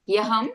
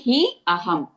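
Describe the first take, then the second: First: The two words are merged into one word. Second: The two words are said as separate words. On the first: "if you combine it, it's hyaham" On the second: "if you find it difficult, you can say he aham"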